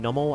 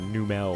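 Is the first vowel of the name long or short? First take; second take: short; long. First: The first vowel is short. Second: The first vowel is long. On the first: The speaker calls it right. "Instead of saying Nummel" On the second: The speaker calls it wrong. "I would always say Numel"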